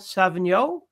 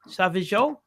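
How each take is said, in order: First: The name includes an added n sound. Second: The name has no added n sound. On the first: The speaker calls it wrong. "I just added consonants where consonants should not be" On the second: The speaker calls it right. "the second pronunciation was correct"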